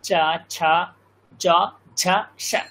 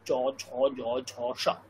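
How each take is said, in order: First: The consonants are pronounced in Sanskrit style. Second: The consonants are pronounced in Bengali style. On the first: "সংস্কৃত বললে" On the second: "বাংলা যদি বলি"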